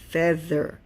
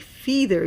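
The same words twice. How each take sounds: First: The first vowel is a short eh sound. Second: The first vowel is a long ee sound. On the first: The speaker calls it right. "you say feather" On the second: The speaker calls it wrong. "you don't say feather"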